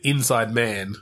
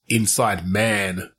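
First: The stress falls on the word inside. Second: The stress falls on the word man. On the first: It is a man who is on the inside. The speaker calls it right. "Because it's like a man on the inside" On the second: Someone is located inside a man. The speaker calls it wrong. "as in like you're inside a man"

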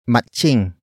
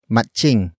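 First: The middle consonant sounds like 'ch'. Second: The same.

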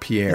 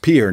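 First: The name is said as two syllables. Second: The name is said as one syllable. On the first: This is how outsiders say the name. The speaker calls it wrong. "not Pierre" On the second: This is how local people say the name. The speaker calls it right. "Is pronounced Pierre"

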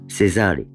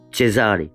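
First: The name is pronounced the French way. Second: The name is pronounced the Italian way. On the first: This is not how the name is said locally. The speaker calls it wrong. "et pas Cesare" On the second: This is how the name is said locally. The speaker calls it right. "Ici, on prononce mon nom Cesare ... Parce que mon nom est italien"

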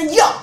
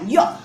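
First: It is said loudly. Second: It is said quietly.

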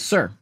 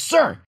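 First: It is said at normal volume. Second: It is said very loudly.

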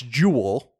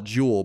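First: The word is said as two syllables. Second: The word is said as one syllable.

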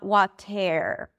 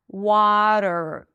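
First: The ending has a vowel sound before the R. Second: The ending is a plain R with no vowel before it. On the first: The speaker calls it wrong. "not water" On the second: The speaker calls it right. "it's a flap T and there is no vowel"

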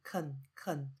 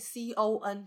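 First: The vowel is reduced to a schwa. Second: The vowel is a full o sound. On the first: The speaker calls it right. "o 的音就会被变成的音" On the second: The speaker calls it wrong. "不会再是本来o 有可能发出o 的音"

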